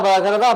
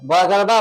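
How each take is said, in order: Both takes have the same delivery.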